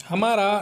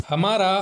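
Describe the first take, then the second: The two takes are said the same way.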